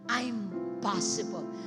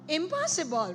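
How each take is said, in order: First: It begins with a long 'I'm' sound. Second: It begins with a short 'im' sound. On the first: It can be done. "only a slight difference in the, the, the way you pronounce it" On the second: It cannot be done. "Look at the word impossible"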